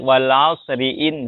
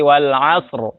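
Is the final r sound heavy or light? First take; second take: light; heavy. First: The r is light, followed by a vowel. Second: The r is heavy, ending the word. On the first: The reading continues without stopping. "nanti dibacanya malah tipis" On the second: The reading stops at this word. "jadi harus dibaca tebal"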